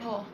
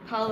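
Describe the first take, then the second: First: The word has a long vowel, like 'Paul'. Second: The word has a short vowel, like 'pal'.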